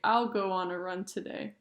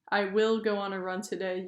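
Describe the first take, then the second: First: The word will is contracted onto I. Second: The word will is said in full. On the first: "you can say"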